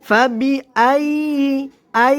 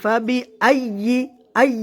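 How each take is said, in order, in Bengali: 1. এই অক্ষর জুড়ে আওয়াজ সহজভাবে চলতে থাকে। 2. এই অক্ষরে আওয়াজ হঠাৎ বন্ধ হয়ে যায়। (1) "আমাদের আওয়াজ জারি থাকবে যেরকম এভাবে" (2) "আমরা অনেকে ভুল করে এভাবে বলি"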